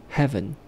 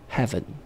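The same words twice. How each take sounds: The two takes are said the same way.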